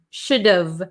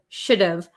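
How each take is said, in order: First: The H is dropped, leaving a contracted V ending. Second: The H is dropped, leaving a contracted V ending.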